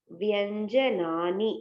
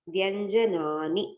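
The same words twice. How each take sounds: First: வியஞ்சனானி drawn out very slowly, every syllable separated; slow careful pronunciation. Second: வியஞ்சனானி stretched out very slowly, each syllable clear; slow careful pronunciation. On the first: Teacher repeating the plural term for students, very slowly. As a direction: spell out வியஞ்சனானி slowly by sound. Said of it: "மெய்யெழுத்துக்கள் அப்படின்னு சொல்றதுக்கு". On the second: Teacher modelling the plural term, very slowly. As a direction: draw out வியஞ்சனானி slowly for the class. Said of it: "நிறைய இருந்தா". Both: Shown as a demonstration.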